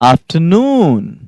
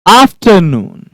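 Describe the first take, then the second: First: The word is said slowly and gently. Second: The word is said quickly and forcefully. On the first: The speaker calls it right. "आपको इसको धीरे से बोलना है" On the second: The speaker calls it wrong. "गलत हो जाएगा"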